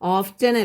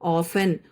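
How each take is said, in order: First: The t sound is clearly pronounced. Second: The t sound is silent. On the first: The speaker calls it wrong. "ഓഫ്റ്റൻ ഒന്നും വായിച്ചേക്കല്ലേ, ഓഫ്റ്റൻ അല്ല" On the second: The speaker calls it right. "ടി silent ആയി"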